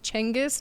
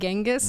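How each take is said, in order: First: The name begins with a ch sound. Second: The name begins with a g sound. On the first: The speaker calls it right. "Apparently, it's Chengiz, it's a C C sound rather than a G sound" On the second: The speaker calls it wrong. "not Genghis. So I've been saying it wrong"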